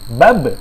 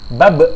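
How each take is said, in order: First: The final consonant is held without an added vowel. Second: The final consonant is followed by an added vowel. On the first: The speaker calls it right. "Dibacanya bab" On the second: The speaker calls it wrong. "Bukan bab"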